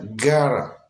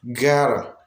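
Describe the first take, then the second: First: The words merge with a flapped middle sound. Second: The same.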